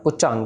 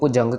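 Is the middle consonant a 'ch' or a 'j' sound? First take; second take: ch; j. First: The middle consonant is a voiceless 'ch' sound. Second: The middle consonant is a voiced 'j' sound. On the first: The speaker calls it wrong. "पुचंग नहीं कहना इसको" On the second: The speaker calls it right. "जज्जे के साथ है तो इसको पुजंग कहना है"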